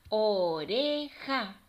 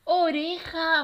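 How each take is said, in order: First: Slow "O-re-ja" in three beats; teacher counting out each syllable of "Oreja". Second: High, loud, drawn-out "Oreja"; joined-up, triumphant "Oreja"; cheering the answer. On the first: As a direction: split "Oreja" with clear gaps. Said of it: "vamos a separar cada una". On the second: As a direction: celebrate the right answer with the children. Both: Shown as a demonstration.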